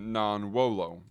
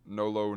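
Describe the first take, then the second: First: It is said as two full words. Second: It is said as one contracted word. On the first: The speaker calls it wrong. "you could, in theory, just say non-wolo, but you don't find that" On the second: The speaker calls it right. "they shorten it, contract it, I suppose, into no-lo"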